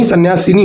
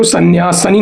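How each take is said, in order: First: सन्यासिनी with short i after s; correct pronunciation. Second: सन्यासनी with plain 'sa' in place of 'si'; wrong pronunciation. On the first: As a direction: say सन्यासिनी as san-yaa-si-nee. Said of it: "स पर छोटी ई की मात्रा". (सन्यासिनी में 'सि' छोटी इ के साथ) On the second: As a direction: say सन्यासनी as san-yaa-sa-nee, no i after s. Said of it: "तो सन्यासनी नहीं". (सन्यासनी में 'सि' की जगह 'स' वाला गलत उच्चारण) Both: Shown as a demonstration.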